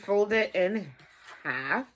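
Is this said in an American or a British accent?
American. It is said in a plain American accent.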